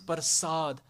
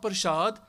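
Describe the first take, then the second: First: The middle consonant is a plain s sound. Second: The middle consonant is a sh sound. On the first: It means blessings or grace. The speaker calls it right. "this is Prasad" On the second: It names the sacred food offering. The speaker calls it wrong. "this is not Prasad"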